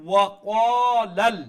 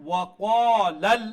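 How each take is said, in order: The two takes are said the same way.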